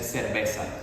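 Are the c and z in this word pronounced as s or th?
s. The c and z sound like s. "in Latin America again we just say cerveza"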